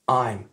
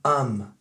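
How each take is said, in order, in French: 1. Il commence par une diphtongue 'ai' pleine. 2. Il se réduit à un son 'am' bref.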